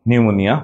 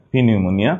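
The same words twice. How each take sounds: First: Said in the usual way. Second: "পি নিউমোনিয়া" with the P named first; silent letter voiced. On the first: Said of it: "উচ্চারিত হয় না". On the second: Shown as a demonstration. Teacher leading repetition, "পি নিউমোনিয়া" with silent P sounded. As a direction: add a spoken "pee" before "নিউমোনিয়া". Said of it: "নিউমোনিয়া বানানে কিন্তু পি".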